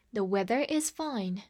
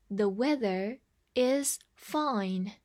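First: Said in the usual way. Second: Slow, careful model sentence; slow reading. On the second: Shown as a demonstration. Teacher repeats the sentence slowly for learners. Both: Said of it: "再来一遍".

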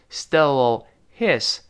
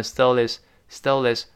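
First: "Stole his" slowly, word by word with the h sounded; separate words. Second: "stole his" run together as stol-is; linked, dropped h. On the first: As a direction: keep a full h in "his" after "Stole". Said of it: "怎么回事呢". ("Stole his"分开慢读，读出h) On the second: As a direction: link the l of "stole" straight into "his", no h. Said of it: "击穿清辅音H". ("stole his"连读，击穿h) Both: Shown as a demonstration.

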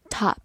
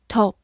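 First: "top" in an American accent, open unrounded AH; American pronunciation. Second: "top" in a British accent, short rounded O; British pronunciation. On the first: Teacher gives learners the other pronunciation, American accent. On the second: Teacher repeats a review word for learners, British accent. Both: Shown as a demonstration. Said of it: "美式发音top".

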